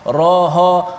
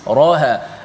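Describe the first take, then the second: First: The ha is as heavy as the ra. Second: The ha is light after a heavy ra. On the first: The speaker calls it wrong. "ra dengan ha sama tebal" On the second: The speaker calls it right. "Sepatutnya ra yang tebal, ha nipis"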